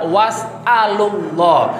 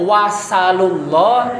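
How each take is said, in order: First: It has a glottal stop in the middle. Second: It has no glottal stop in the middle. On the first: "Boleh dengan hamzah" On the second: "tanpa adanya hamzah"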